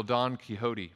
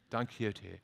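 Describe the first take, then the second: First: Quixote said Texas-style as kee-HO-tee; Texas pronunciation. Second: Quixote said kee-OH-teh with a soft laugh; Spanish-leaning pronunciation. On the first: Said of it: "That's my Texas accent". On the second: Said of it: "I don't know how to say it right". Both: Shown as a demonstration.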